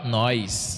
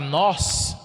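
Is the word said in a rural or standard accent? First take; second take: rural; standard. First: It is said in a rural countryside accent. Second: It is said in a standard accent. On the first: "na roça, a gente fala nós" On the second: "ao invés de falar nós"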